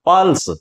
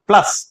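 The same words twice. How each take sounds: First: pulse with the stressed vowel right after प. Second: plus with the vowel after ल carrying the stress. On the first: Hindi teacher contrasting it with plus, stress on प in pulse. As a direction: lean on the first syllable प in pulse, closing on ल्स. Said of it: "यहां पे प के ऊपर बलाघात हो रहा है". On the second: Hindi teacher showing students correct stress in plus, stress on ल. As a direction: join प to ल and lengthen the ल syllable in plus. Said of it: "ल लंबा जाएगा". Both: Shown as a demonstration.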